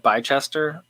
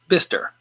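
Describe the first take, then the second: First: The name is read out as it is spelled. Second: The name is said short, as 'Bister'. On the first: It is a guess from the written name. The speaker calls it wrong. "I would call it Bicester from the way it looks at it" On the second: It is how local people say it. The speaker calls it right. "He says it's pronounced Bister"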